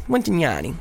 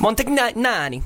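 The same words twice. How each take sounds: First: Montagnani said more smoothly, falling at the end; corrected surname attempt. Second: Montagnani drawn out, high, tripping on the middle; stumbling surname attempt. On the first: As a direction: say Montagnani in one smooth, settled go. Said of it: "That sounded good, that last one". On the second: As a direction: stumble slowly through Montagnani on a higher pitch. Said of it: "always get his surname wrong". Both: Shown as a demonstration.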